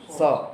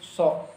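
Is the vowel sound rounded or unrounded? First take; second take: unrounded; rounded. First: The lips stay open, giving an unrounded vowel. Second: The lips are rounded, giving an o vowel. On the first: The speaker calls it right. "hanya cukup dibuka saja ketika dia fathah" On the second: The speaker calls it wrong. "yang dimonyongkan adalah bibir"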